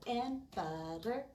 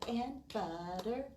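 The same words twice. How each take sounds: Both takes have the same delivery.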